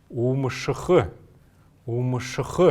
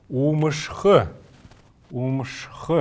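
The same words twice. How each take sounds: No difference in how they are said.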